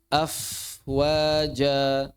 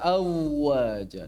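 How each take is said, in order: First: The f sound before the w is clearly heard. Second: The f sound before the w is dropped. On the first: The speaker calls it right. "Afwaja misal" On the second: The speaker calls it wrong. "Jangan dibaca awaja"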